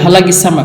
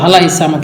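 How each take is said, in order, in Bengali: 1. মাঝের ব্যঞ্জনটি গলা থেকে আসা একটি গ-এর মতো শব্দ। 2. মাঝের ব্যঞ্জনটি একটি গ্লটাল স্টপ। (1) "কফকে সবসময় গয়ন হিসাবে উচ্চারণ করে" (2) "মিশরের যারা কারো কারো অধিবেশী থাকে তারা মূলত বলবে"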